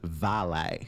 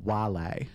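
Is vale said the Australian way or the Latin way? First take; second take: Australian; Latin. First: It is said the Australian English way. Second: It is said the original Latin way. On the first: "In Australia, it invariably says vale" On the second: "if you want the original Latin pronunciation"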